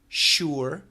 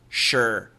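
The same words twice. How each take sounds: First: The word stretches into almost two syllables. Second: The word is one short syllable, like 'sher'. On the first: "The perfect pronunciation would be sure, sure, sure. Almost two syllables" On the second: "most Americans will simply say sure, sure, sure, like S H E R"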